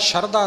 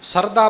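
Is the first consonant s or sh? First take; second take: sh; s. First: The first consonant is a sh sound. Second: The first consonant is an s sound. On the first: The speaker calls it wrong. "ਸ਼ਰਧਾ ਨਹੀਂ ਬੋਲਣਾ" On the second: The speaker calls it right. "ਸ਼ਰਧਾ ਪੜ੍ਹਨਾ ਹੈ"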